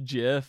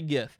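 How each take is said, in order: First: The word begins with a soft J sound. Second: The word begins with a hard G sound. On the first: This is how the creator said it. "the creator actually said that it was pronounced Jif, like that" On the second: It follows the word graphics. "that's a hard G, so I'm gonna say GIF"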